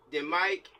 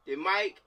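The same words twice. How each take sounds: The two takes are said the same way.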